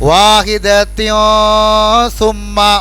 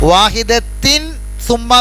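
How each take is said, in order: First: The n sound is hidden and nasalised. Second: The n sound is pronounced clearly. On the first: The speaker calls it right. "Silent ആക്കണം" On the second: The speaker calls it wrong. "വ്യക്തമായിട്ട് പറയാൻ പാടില്ല"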